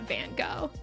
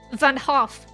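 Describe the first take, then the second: First: The surname begins with a hard G sound. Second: The surname begins with a breathy H-like sound. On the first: The speaker calls it wrong. "I know it's not Van Gogh" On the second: The speaker calls it right. "I think I know how to pronounce it"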